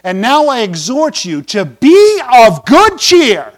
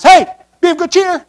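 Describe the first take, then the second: First: Slow, measured reading of the verse; scripture reading. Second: Much higher, bright mock-cheery "Hey"; mock loudmouth preacher. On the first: Shown as a demonstration. Pastor reading Paul's words aloud, slow and measured. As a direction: read the verse out slowly and solemnly. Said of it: "verse twenty-two of, uh, Acts twenty-seven". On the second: Pastor mocking Paul on the storm-tossed ship, high and cheery. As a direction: play the annoying cheerful preacher on deck. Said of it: "this loudmouth preacher gets up and says".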